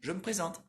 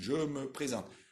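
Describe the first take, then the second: First: The phrase is said fast with reduced syllables. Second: The phrase is said slowly with every syllable articulated. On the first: The speaker calls it right. "Você viu como eu falei mais rápido?" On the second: The speaker calls it wrong. "Ninguém vai falar assim"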